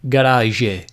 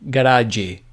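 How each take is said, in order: First: The final 'g' sounds like the 's' in 'measure'. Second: The final 'g' sounds like the 'j' in 'judge'.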